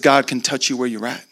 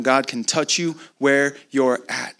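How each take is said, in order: First: Said in the usual way. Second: Spaced-out words, "where you're at" drawn out; slow, deliberate repeat. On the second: Real, not acted. Preacher having the congregation write it down, slow and deliberate. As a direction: say it slowly for note-takers, pausing before "where". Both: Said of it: "Write that down".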